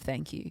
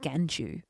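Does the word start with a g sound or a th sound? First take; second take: th sound; g sound. First: It starts with a th sound. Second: It starts with a g sound. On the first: "instead of "thank you."" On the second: "son George used to say "ganchu""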